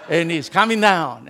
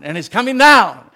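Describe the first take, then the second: First: Said in the usual way. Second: Proclaimed louder, with force; emphatic repeat louder. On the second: Shown as a demonstration.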